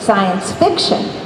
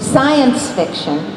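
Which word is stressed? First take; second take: fiction; science. First: The stress is on the word fiction. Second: The stress is on the word science. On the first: The story matters more than the science. "I pronounced it" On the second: The science matters more than the story. "he pronounced it"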